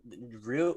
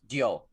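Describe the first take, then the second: First: The name is said with an American pronunciation. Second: The name is said with a Japanese pronunciation. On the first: The speaker calls it wrong. "Ryu or however you guys say it. It's not how you say his name" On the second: The speaker calls it right. "It's Dio. I was in Japan. I think I'd know"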